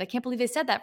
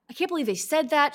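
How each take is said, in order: First: Lightly whiny "I can't believe they said that"; mock the outrage of a victim; mock victimhood. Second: High, stung "I can't believe they said that"; hurt disbelief. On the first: Coach mocking the victim's outrage, lightly whiny. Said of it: "You're colluding, but it's in victimhood". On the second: Retold or imitated. A stung listener mimicking her own hurt disbelief. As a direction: play the one who just got insulted. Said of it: "it's like she saw right through me".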